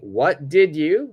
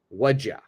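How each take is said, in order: First: Each word is said separately and fully. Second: The words are run together into one sound.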